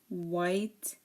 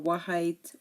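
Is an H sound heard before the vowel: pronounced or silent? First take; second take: silent; pronounced. First: No H sound is heard before the vowel. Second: An H sound is heard before the vowel. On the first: The speaker calls it right. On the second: The speaker calls it wrong. "or wahite"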